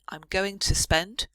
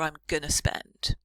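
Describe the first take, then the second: First: Going to is said in full, two words. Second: Going to is reduced to one word, gonna. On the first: "two ways to say it" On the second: "two ways to say it"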